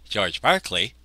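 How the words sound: The name is said the British way.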